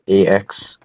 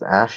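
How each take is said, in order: First: The name is said as separate letters. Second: The name is said as one word. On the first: The speaker calls it wrong. "not A X" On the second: The speaker calls it right. "it's pronounced Ash"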